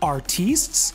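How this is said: It is said with a smug French pronunciation.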